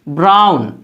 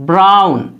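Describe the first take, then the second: Both takes have the same delivery.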